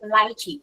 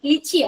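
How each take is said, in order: First: The first syllable sounds like 'lie'. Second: The first syllable sounds like 'lee'. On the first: The speaker calls it right. "ലൈച്ചിയാണ്" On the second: The speaker calls it wrong. "ലിച്ചി അല്ല"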